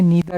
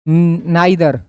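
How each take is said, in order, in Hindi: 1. पहला स्वर 'ee' जैसा बोला जाता है। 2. पहला स्वर 'eye' जैसा बोला जाता है। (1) "इसको क्या बोलना है नीदर" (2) "गलती करते हो, इसको नाइदर नहीं बोलना है"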